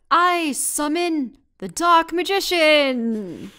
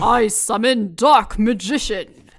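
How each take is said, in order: First: It is said in the speaker's normal voice. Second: It is said in a put-on character voice.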